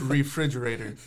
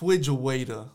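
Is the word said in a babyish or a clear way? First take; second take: clear; babyish. First: The word is said clearly with all its sounds. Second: The word is garbled like a small child's speech. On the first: The speaker has learned to say it properly. The speaker calls it right. "say it right" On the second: A beginner is still learning to say it. The speaker calls it wrong. "it's cute at the very beginning"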